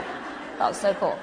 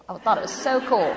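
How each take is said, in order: First: Whispered through a giggle; laughing whisper. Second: Said in the usual way. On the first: Acted. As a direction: breathe it out with a laugh. Repeats line, second take whispered.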